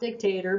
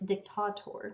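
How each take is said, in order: First: The word has its English pronunciation. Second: The word has its original Latin pronunciation. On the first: The speaker calls it wrong. "that's the English saying of it" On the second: The speaker calls it right. "this original saying"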